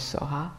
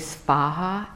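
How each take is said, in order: First: No v sound follows the s. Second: A v sound follows the s. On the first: "it sort of comes out as Soha" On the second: "It's technically Svaha"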